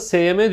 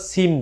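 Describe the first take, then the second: First: The name is spoken as two separate letters. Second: The name is spoken as a single syllable. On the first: This is how it is said locally. "S M diyoruz biz" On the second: This is how it is said worldwide. "tüm dünyada Sim diye geçiyor. Böyle telaffuz ediliyor"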